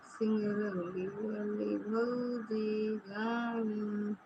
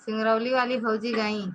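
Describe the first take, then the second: First: Slow, drawn-out, soft mock lament; mock wailing. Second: Said in the usual way. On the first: Teasing a friend that bhauji has left, mock wail. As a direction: drag it out like a pretend cry. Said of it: "अब रोवत रहा इसे".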